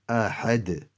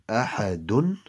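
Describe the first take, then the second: First: The word ends on a bare d consonant. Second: The word ends with an added -un ending. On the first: The speaker calls it right. "turn that do pesh into a jazm" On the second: The speaker calls it wrong. "instead of saying ahadun"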